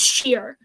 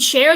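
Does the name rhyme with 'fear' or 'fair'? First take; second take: fear; fair. First: The name is said with a vowel like 'fear'. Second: The name is said with a vowel like 'fair'. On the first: This imitates how someone else mispronounces the name. The speaker calls it wrong. "She says Sheer" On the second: This is the usual way to say the name. The speaker calls it right. "you mean [name]?"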